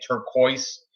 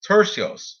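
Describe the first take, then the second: First: The name is said like the word turquoise. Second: The name is said unlike the word turquoise. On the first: The speaker calls it wrong. "I kept saying turquoise. That is totally not how you say it" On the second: The speaker calls it right. "But it's Turcios"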